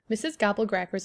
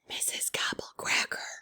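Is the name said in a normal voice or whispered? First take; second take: normal; whispered. First: The name is said in a normal voice. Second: The name is said in a whisper. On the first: "I ask in amazement" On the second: "you have to whisper her name when you say it, like this"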